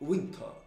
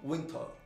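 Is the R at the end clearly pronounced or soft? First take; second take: soft; soft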